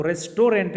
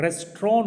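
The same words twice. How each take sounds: First: रेस्टोरेंट said as "res-to-rent", with the final T; रेस्टोरेंट with every syllable and the T; wrong restaurant. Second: रेस्टोरेंट as "res-tron", with the T silent; रेस्टोरेंट squeezed into two syllables, no final T; correct restaurant. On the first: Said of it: "रेस्टोरेंट नहीं होता है". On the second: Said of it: "रेस्टोरेंट होता है". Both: Shown as a demonstration.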